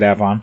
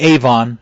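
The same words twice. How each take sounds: First: It uses the local regional pronunciation. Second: It uses the widely common pronunciation. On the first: "out here they pronounce it Avon" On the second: "most people would say Avon"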